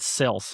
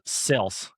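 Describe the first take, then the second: First: Said in the usual way. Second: "Sales" said as "sels", short flat vowel, falling; mock Andy Elliott saying "Sales" like "sels"; "Sales" with the a squeezed to a short e, lightly imitated; Andy's way of saying sales. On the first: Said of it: "He calls it sales". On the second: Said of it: "And Andy's accent, he goes".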